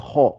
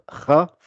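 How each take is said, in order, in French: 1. Le son est gonflé et emphatique. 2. Le son est simple, il n'est pas gonflé. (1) "c'est ra, ra. Elle est gonflée" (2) "il ne faut pas dire ra"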